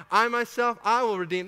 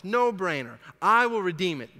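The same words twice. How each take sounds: First: I myself hit high and loud; strong stress on I. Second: I punched, said firmly and louder; stress on I. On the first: Shown as a demonstration. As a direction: punch I, higher and louder, claiming it proudly. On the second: Retold or imitated. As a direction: lean on the word I in I will redeem it. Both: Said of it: "The emphasis is on I".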